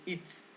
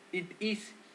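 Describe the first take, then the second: First: The words are contracted into one syllable. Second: Two separate full words are said. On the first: "le quitas la i y es it's" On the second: "Para cambiar it"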